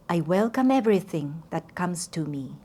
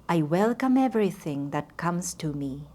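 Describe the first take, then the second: Both takes have the same delivery.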